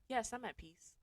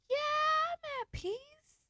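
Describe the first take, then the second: First: The pitch is lower and sounds settled. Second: The pitch is high and sounds unsure.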